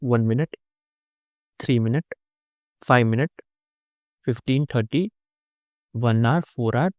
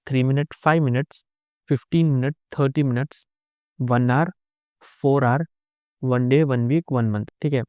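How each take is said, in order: First: Items spaced out with pauses between them; slowly. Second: Said in the usual way. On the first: Shown as a demonstration. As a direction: read the list one by one, pausing after each. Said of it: "मैं धीरे-धीरे बोलता हूँ". (रुक-रुक कर, धीरे-धीरे गिनाते हुए) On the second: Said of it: "fast जा रहा हूँ".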